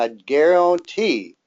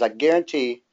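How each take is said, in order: First: It is said in a southern American accent. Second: It is said in the speaker's ordinary accent.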